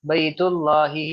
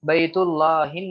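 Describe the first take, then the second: First: बैतुल्लाही ending on a plain long -hi; correct form demo. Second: बैतुल्लाहिन with the nunation ending -hin; wrong form demo. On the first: Teacher shows students the right reading. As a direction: end बैतुल्लाही on -hi with no n. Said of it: "ही पढ़ रहे हैं". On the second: Teacher shows students the wrong reading. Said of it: "नहीं पढ़ रहे हैं". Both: Shown as a demonstration.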